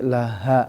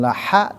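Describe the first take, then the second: First: The h is a light breathy sound. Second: The h is a raspy sound from mid-throat. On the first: The speaker calls it right. "tapi laha" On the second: The speaker calls it wrong. "ada juga ya yang pengucapan ha wastol ... bukan laha"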